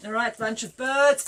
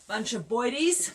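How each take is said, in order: First: Said in the usual way. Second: Jokey Cockney boidies, then correct to birds; mock Cockney boidies.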